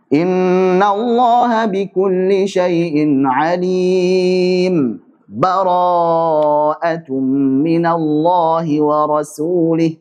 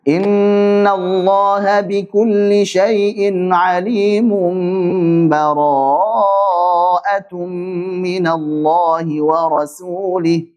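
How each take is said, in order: First: A brief pause without a breath separates the verses. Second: The two verses run together without any pause.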